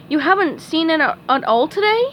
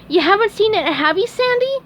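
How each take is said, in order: First: Lightly voiced Texan squirrel; a hint of a kind squirrel; Sandy voice. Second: Very high, hopeful sponge voice; high squeaky hoping question; hopeful SpongeBob. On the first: Sandy speaks. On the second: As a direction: plead a little. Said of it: "SpongeBob asked hopefully". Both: A narrator's reading.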